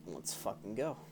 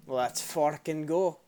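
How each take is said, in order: First: Said in the usual way. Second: Loud, slow, drawn-out battle cry; hyped shout. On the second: Real, not acted. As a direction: pump yourself up, yell it. Hyping up for fight.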